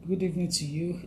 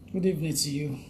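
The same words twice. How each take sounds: The two takes are said the same way.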